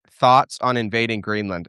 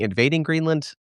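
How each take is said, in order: First: Said in the usual way. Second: Greenland lifted high in mock disbelief; amused incredulous question. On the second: Shown as a demonstration. Host repeating a viewer's odd wording, amused and incredulous. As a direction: quote the word back, pitched up and doubtful. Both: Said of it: "His terminology is a little funny".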